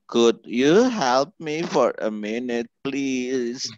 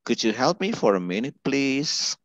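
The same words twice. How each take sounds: First: The sentence is said slowly and carefully. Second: The sentence is said quickly and smoothly. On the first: The speaker calls it wrong. "kalau bacanya pelan mah nggak beda lah" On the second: The speaker calls it right. "Itu dengan cepat mereka"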